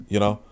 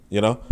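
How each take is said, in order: The two takes are said the same way.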